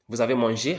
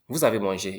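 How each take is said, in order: First: The voice rises at the end. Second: The voice falls at the end. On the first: It asks a question. "just raise the tone at the end" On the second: It states a fact. "You have eaten"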